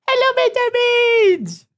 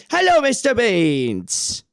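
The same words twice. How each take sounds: First: Much higher, slow, louder sing-song hello. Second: Higher, slow hello to the cat. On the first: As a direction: squeal a drawn-out hello at the cat. Greeting the cat. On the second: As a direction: greet the cat sweetly, drawn out. Greeting the cat again. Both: Real, not acted.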